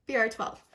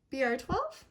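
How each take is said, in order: First: B R twelve settled with a falling, certain tune; confirming fall. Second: B R twelve with a rising, unsure tune; reading the label, not quite sure; questioning rise. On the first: Confirming shade to viewers, firm falling tune. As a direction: land it firmly now that you're sure. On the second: Reading shade off bottle, unsure questioning rise. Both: Real, not acted.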